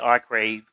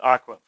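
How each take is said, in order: First: It is said English-style, sounding every letter. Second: It is said with the native Hebrew pronunciation. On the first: "in English we may say arcrave because we want to we want to kind of sound every letter" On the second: "It's pronounced the way it's pronounced in Hebrew"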